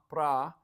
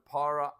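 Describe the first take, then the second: First: The word is squeezed into one syllable. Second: The word is said with two syllables. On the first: "pra instead of para" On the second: "instead of para"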